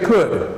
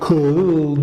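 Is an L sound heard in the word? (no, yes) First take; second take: no; yes. First: The word is said with no L sound. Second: The L sound is pronounced in the word. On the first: The speaker calls it right. "so we just say could" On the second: The speaker calls it wrong. "You say could, you can't say that"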